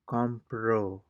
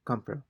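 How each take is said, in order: First: The stress is on the last syllable. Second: The stress is on the first syllable. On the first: He bought. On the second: I buy.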